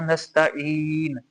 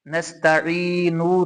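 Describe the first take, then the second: First: नस्तईन slowly with the नून silent of vowel; stopping form. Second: नस्तईनु slowly with the final उ sounded; written vowel ending. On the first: Teacher gives the correct stop, slow नस्तईन ending on bare नून. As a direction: stretch नस्तईन and close on a still नून. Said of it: "नस्तईनु नहीं पढ़ा, नस्तईन". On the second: Teacher names the written form, slow नस्तईनु with final उ. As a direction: say नस्तईनु slowly, voicing the last उ. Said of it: "नस्तईनु नहीं पढ़ा". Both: Shown as a demonstration.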